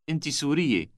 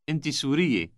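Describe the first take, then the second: The two takes are said the same way.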